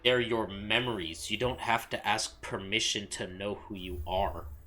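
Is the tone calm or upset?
upset. It is said in an angrier, more upset tone.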